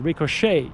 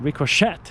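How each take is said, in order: First: The final t sound is silent. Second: The final t sound is pronounced. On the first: The speaker calls it right. "but ricochet. It's French" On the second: The speaker calls it wrong.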